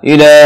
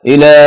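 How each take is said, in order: No difference in how they are said.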